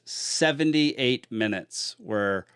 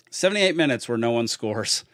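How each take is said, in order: First: Slow words through a yawn. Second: Said in the usual way. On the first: Real, not acted. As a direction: talk while yawning. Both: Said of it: "sorry, I'm yawning".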